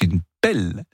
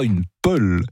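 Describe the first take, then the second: First: The vowel in pelle is an open e. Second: The vowel in pelle is a weak schwa. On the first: The speaker calls it right. "vous dites une pelle" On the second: The speaker calls it wrong. "vous dites pas une pelle"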